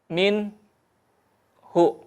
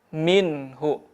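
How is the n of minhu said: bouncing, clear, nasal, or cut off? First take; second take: cut off; clear. First: A short break separates the n from hu. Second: The n is said clearly without hum or break. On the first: The speaker calls it wrong. "memutus ... saktah" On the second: The speaker calls it right. "dibaca jelas"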